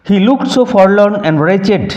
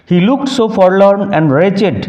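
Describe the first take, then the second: No difference in how they are said.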